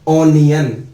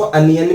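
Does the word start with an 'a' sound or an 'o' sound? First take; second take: o; a. First: The word starts with an 'o' sound. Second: The word starts with an 'a' sound. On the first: "English में बोला गया जाता है ओनियन" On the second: "कई countries में इसको अनियन भी बोलते हैं।"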